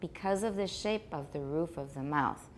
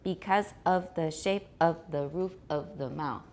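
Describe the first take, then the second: First: The words are linked together smoothly. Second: The words are separated and sound choppy. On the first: The speaker calls it right. "Can you link a little more smoothly?" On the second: The speaker calls it wrong. "It sounds very choppy and it's not natural"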